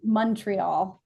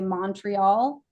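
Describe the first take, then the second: First: The first syllable sounds like 'mun'. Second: The first syllable sounds like 'mon'. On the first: The speaker is local. The speaker calls it right. "M U N, Montreal" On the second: The speaker is not local. The speaker calls it wrong. "If you say Montreal, you're not local"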